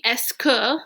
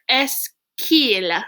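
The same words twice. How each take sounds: First: Said in the usual way. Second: "Est-ce qu'il" with the e dropped, k running into "il"; elided into one word. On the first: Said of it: "This would normally be". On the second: Shown as a demonstration. Teacher showing the contraction to students, "qu'il" joined as one syllable. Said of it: "that has become one word".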